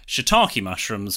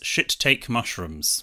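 First: The first word is said as shee-tah-kee. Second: The first word is said as shit-take. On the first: The speaker calls it right. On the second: The speaker calls it wrong.

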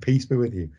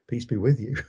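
First: The word 'peace' is given stress. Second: The word 'peace' is given no stress. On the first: The speaker calls it right. "as any normal person would, and indeed as the pastor instructs him to deliver it" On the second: The speaker calls it wrong. "at no point does he put emphasis on the word peace"

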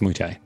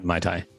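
First: It does not sound like the drink name. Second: It sounds like the drink name Mai Tai. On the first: It names the martial art. The speaker calls it right. "I'm just saying that it's Muay Thai" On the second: It names a cocktail. The speaker calls it wrong. "not Muay Thai. Muay Thai is a drink"

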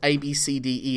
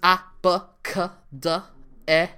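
First: Each letter is said by its name. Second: Each letter is said as its sound. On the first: "children are no longer taught" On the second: "They're taught it phonetically"

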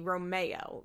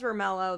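First: The double L is not sounded as L. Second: The double L is sounded as L. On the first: "if you pronounce the name right, it'd be Romeo. You don't pronounce the L's when it's a double L" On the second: "Or even if it was Romello"

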